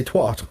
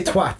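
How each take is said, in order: First: "twat" with an open "ah" vowel; American-style "twat", back open vowel; American pronunciation. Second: Said in the usual way. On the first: Shown as a demonstration. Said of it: "they say twat". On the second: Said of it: "when they say twat".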